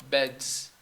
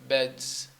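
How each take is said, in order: Both takes have the same delivery.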